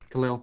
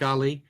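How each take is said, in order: First: The word ends with a final L sound. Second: The word ends without a final L sound. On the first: The speaker calls it right. "Galil, my bad" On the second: The speaker calls it wrong. "Am I saying Gali?"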